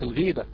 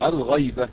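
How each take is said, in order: First: The first vowel is a long i. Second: The first vowel is an open a. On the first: It means speaking ill of someone behind their back. The speaker calls it wrong. "وليست الغيبة" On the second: It refers to the absent third person in grammar. The speaker calls it right. "هي فعلا الغيبة"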